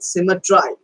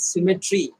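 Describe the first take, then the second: First: The last syllable ends with an eye sound. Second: The last syllable ends with an ee sound. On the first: The word is bent to rhyme with the line before. "we have to rhyme the lines. That's why we say symmetry" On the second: This is the everyday pronunciation. "generally we pronounce it as symmetry"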